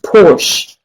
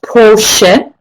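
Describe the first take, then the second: First: The name is said with English pronunciation. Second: The name is said with German pronunciation. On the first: "in English it is pronounced" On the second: "in German it is pronounced"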